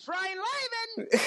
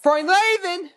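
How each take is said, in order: First: Very high, loud cartoon cry; cartoon catchphrase voice. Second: Higher, louder put-on cartoon voice; Paul Rugg. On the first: Shown as a demonstration. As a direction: shriek it out, zany and squealing. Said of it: "then to Mister Rugg's attempt". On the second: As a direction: cheap imitation, belted out in a high voice. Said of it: "in the Paul Rugg voice".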